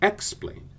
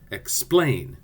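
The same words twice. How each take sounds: First: The stress is on the first syllable. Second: The stress is on the second syllable. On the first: The speaker calls it wrong. "it sounds terrible if we say" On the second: The speaker calls it right. "The accent is on the second syllable. Listen"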